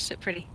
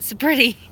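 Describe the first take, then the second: First: Said in the usual way. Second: Louder, sharper sit pretty; stern owner's command to an excited dog; firm command. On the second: Real, not acted. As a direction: make the dog mind you now. Repeats command, now firmer.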